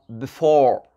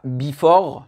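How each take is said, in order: First: "before" with tiny "bi" and long stressed "FORE"; correct pronunciation. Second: "before" as "BEE-for", loud first syllable and French vowels; wrong French-style pronunciation. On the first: Teacher correcting the French error, stressed second syllable. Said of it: "non, before". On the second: Teacher showing what not to say, French-style mispronunciation. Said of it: "pas before". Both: Shown as a demonstration.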